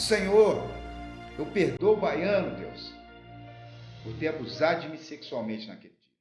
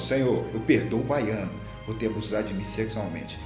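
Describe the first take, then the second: First: It is shouted very loudly. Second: It is said somewhat louder.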